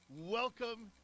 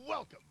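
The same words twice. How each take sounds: First: A slower, falling welcome; drawn-out welcome. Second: High, quick cheerful welcome; a short upbeat hello; bright welcome. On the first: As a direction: stretch it out warmly. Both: Real, not acted. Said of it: "if you can hear a smile in my voice".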